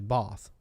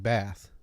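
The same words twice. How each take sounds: First: It is said in a Welsh accent. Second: It is said in an American accent. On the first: This is how the grandmother from Wales said it. "she would say Bath" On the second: This is how the speaker's family said it. "we grew up saying Bath"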